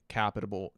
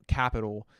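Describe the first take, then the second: First: Capital slurred as capitable with an extra syllable; stumbled word. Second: Said in the usual way. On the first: Real, not acted. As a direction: trip over capital, saying capitable.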